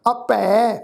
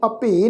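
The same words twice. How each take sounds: First: ਅਪੈ ending in open "ai", "apai"; ਅਪੈ drawn out on a final open "ai"; correct pronunciation. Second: ਅਪੇ ending in closed "ay", "apay"; ਅਪੇ misread with a narrow final "e"; wrong pronunciation. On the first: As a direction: open the last vowel of ਅਪੈ to "ɛ". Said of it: "ਅਪੈ ਸ਼ਬਦ ਹੈ". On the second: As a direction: close the last vowel of ਅਪੇ to "e". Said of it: "ਇਹਨੂੰ ਅਪੇ ਨਹੀਂ ਪੜ੍ਹਨਾ". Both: Shown as a demonstration.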